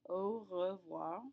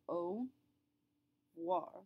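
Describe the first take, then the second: First: The R sound in the middle is pronounced. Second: The R sound in the middle is dropped. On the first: It is a bit clunkier at full speed. The speaker calls it wrong. "If you really, really want to say the R, you can" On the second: It flows faster and easier in natural speech. The speaker calls it right. "Note that I'm not really saying the R"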